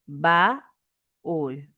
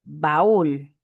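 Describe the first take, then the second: First: "Baúl" as a held ba, a pause, then úl; separated syllables. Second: Said in the usual way. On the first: Shown as a demonstration. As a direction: break "Baúl" in two to show the hiatus. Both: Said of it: "Separación y unión de vocales".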